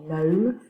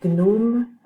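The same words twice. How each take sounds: First: The G at the start is silent. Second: The G at the start is pronounced. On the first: This is the English way to say it. "in English they say gnome" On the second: This is the French way to say it. "in French we can say gnome"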